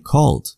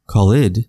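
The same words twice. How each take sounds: First: The ending is said as a plain 'd' sound. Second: The ending is said as an extra 'id' syllable. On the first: The speaker calls it right. "but we say called" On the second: The speaker calls it wrong. "We don't say called"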